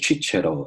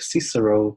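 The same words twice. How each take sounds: First: The name is said with Italian pronunciation. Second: The name is said with English pronunciation. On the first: "in Italy, it's like a" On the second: "in English it's like"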